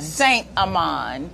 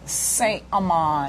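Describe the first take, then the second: First: "Saint Amand" repeated slowly, lower, rising at the end; copying a French name. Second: Careful French Saint Amand; French name. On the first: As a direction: try "Saint Amand" again, slow and careful. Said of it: "You say it so well". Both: Shown as a demonstration.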